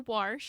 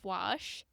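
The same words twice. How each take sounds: First: It is said with a regional local pronunciation. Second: It is said with a standard, general pronunciation. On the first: "some people say" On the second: "instead of"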